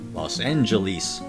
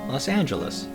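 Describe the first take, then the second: First: It ends with a long E sound. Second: It has an A vowel and a J sound. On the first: "In old movies, I'll often hear it pronounced Los Angeles, with the distinctive long E towards the end" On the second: "with an A sound for the O in los, and of course the J sound for the G, and an A sound for the last E"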